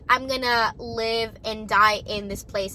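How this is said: It is said in a happy, cheerful tone. This is how country music sees it. "happy face"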